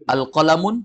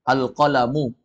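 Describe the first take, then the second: First: The word ends with an n sound. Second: The word ends with a vowel, no n. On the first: The speaker calls it wrong. "Al-qalamun ada al pakai mun" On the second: The speaker calls it right. "Kalau masuk alif lam, tanwinnya hilang"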